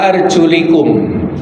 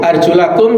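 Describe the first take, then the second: First: The vowel after the L is 'i'. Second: The vowel after the L is 'a'. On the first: The feet are only to be wiped. "ada kelompok dari kaum Syiah yang mana membaca wa arjulikum" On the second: The feet are to be washed. "lamnya di fathah"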